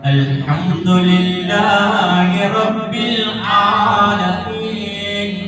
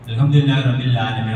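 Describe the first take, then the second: First: The 'ain' sound in alameen is lengthened. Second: The 'ain' sound in alameen is short. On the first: The speaker calls it right. "ഐൻ ശബ്ദം നീളുന്നതാണ്" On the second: The speaker calls it wrong. "ഇന്നലെ ഞാനൊരു പള്ളിയിൽ പോയ പാടത്തെ ഇമാം ഇങ്ങനെ പറഞ്ഞു"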